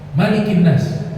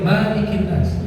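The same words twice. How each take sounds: First: The first vowel of Malikin is short. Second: The first vowel of Malikin is long. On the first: The speaker calls it right. "Kata Malik harus dibaca pe pendek" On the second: The speaker calls it wrong. "Gak boleh"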